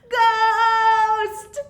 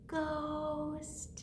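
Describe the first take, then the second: First: The word is said very loudly. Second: The word is said very quietly.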